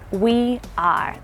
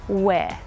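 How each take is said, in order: First: The two words are said fully and separately. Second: The two words are contracted into one syllable. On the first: It sounds stiff and formal. The speaker calls it wrong. "it sounds quite sort of stiff and formal" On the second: It sounds natural and casual. The speaker calls it right. "you would probably just contract those two things together"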